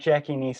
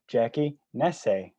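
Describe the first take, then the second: First: The surname sounds like the word 'nice'. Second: The surname is said the Italian way. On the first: The speaker calls it wrong. "It's not Jackie Nice" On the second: The speaker calls it right. "We got the name pronounced the right way"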